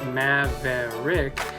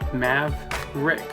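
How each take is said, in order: First: The middle syllable is pronounced in full. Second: The middle syllable before the R is dropped. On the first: The speaker calls it wrong. "instead of" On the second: The speaker calls it right. "it's just"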